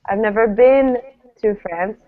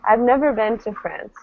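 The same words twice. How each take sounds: First: The stress falls on the word been. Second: The stress falls on the word never. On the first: "This would be a bit strange, but it would imply, uh, well, I've never been there, but I've seen it" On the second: "the most natural way to stress this would be, ... Stressing the never"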